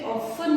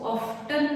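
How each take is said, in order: First: The t sound is left silent. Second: The t sound is clearly pronounced. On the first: The speaker calls it right. "टी इसमें silent है, इसे ऑफन बोलते हैं" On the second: The speaker calls it wrong. "इसको ऑफ्टन नहीं बोलते हैं"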